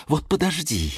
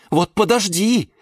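First: Threat held back at modest volume; contained threat. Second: High, sharp warning; high, huffy outburst; indignant threat. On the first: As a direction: warn a rival without shouting. Geranium's repeated threat, now low-key. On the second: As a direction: threaten in high-pitched outrage. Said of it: "задохнулась от возмущения". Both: A narrator's reading.

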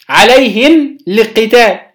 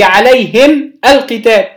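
First: عليهم للقتال as bare "alayhim", then "l-qital"; sukun clash demo. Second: عليهم القتال said apart, "alayhim, al-qital"; two sukuns separated. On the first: Teacher showing why a vowel is needed, عليهم للقتال clashing. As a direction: halt on عليهم, start للقتال without its a. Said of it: "عايزين نتخلص من التقاء الساكنين". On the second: Teacher showing students the clash, عليهم القتال kept apart. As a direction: stop on the m of عليهم, restart القتال. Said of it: "للتخلص من التقاء الساكنين". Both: Shown as a demonstration.

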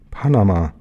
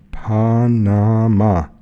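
First: Said in the usual way. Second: Very slow, drawn-out PA-NA-MA; slow, emphatic reading of Panama; syllable by syllable. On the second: Acted. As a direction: spell out Panama in long, separate syllables. Sign read out syllable by syllable.

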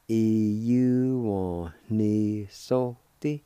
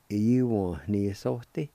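First: E U one ni so ti said very slowly, every syllable held; slow it right down so students can follow; slow pronunciation. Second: Said in the usual way. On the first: Shown as a demonstration. Teacher modelling the whole word for students, very slowly. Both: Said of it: "it's pronounced like this".

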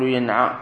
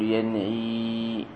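First: ينعى said with a final a, yanʿā; ينعى ending in a long a, the wrong vowel; wrong form. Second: ينعي said with i, yanʿī, a little softer; ينعي with a kasra on the ʿayn and a final ī; correct form. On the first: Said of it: "لا تقول ينعى". (ينعى بفتح العين وألف في آخره) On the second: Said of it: "تقول ينعي". (ينعي بكسر العين) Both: Shown as a demonstration.

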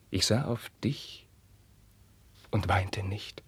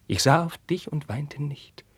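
First: Whisper. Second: Higher voiced cry; higher, voiced outburst; raised voice. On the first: Acted. Carlos recalls the beating. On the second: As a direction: break out of the whisper. Carlos repeats his refrain.

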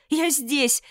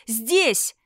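First: High, loud call for help; shouting for help. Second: Loud repeated call; shouting for help. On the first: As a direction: yell with all your lungs. (крик о помощи) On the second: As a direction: yell it even louder. (громкий крик) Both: A narrator's reading. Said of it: "закричала во всю силу лёгких".

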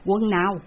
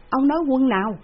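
First: A touch of surprise, asking back; puzzled question. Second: Higher and louder, pressing the question; insistent repeat. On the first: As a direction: ask back, mildly puzzled. (hỏi lại, hơi ngạc nhiên) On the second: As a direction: demand it again, louder. (hỏi dồn, cao và to hơn) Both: A narrator's reading. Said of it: "lão bá hộ phải hỏi lại".

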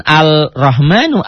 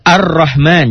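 First: Slow "Al-Rahmanu" with a clear l before the r; wrong-way demo of "Al-Rahmanu", l pronounced; l wrongly sounded. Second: "Ar-Rahman" with a doubled rolled r, no l; higher-pitched correct demo of "Ar-Rahman", l assimilated; l left silent. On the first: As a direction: separate al from rahmanu in "Al-Rahmanu". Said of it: "jangan Al-Rahmanu". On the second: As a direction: jump from a straight onto the r in "Ar-Rahman". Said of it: "alnya jangan dibaca". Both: Shown as a demonstration.

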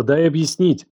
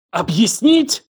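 First: Mildly urgent plea; pleading. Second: High, incredulous, enraged question; choked with fury. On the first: He begs Елена to listen, pleading. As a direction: plead for a chance to explain. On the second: Елена gasps at his excuse, furious. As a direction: throw the word back in outrage. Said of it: "Она задохнулась от ярости". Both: A narrator's reading.

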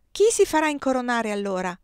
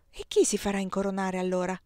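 First: Put-on higher, louder child voice; a boy echoing his father's question; child asking mother; child repeating. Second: Said in the usual way. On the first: A narrator's reading.

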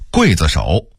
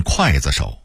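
First: Said in the usual way. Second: 刽子手 as kuàizishǒu; Beijing reading. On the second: Shown as a demonstration. Narrator contrasting word lists, Beijing reading. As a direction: say 刽 in 刽子手 as kuài, not guì. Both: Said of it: "北京话念刽子手".

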